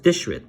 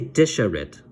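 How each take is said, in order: First: No vowel is heard between sh and r. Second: A vowel is heard between sh and r. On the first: The speaker calls it right. "It's just dishrit" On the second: The speaker calls it wrong. "we don't say disharit"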